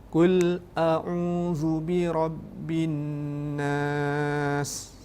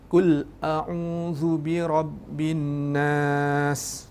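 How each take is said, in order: First: The final long vowel is held for six beats. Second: The final long vowel is held for two beats. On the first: "Enam harakat adik-adik"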